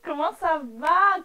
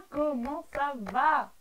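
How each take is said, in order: First: Drawn-out singsong. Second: Slow falling greeting. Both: Shown as a demonstration.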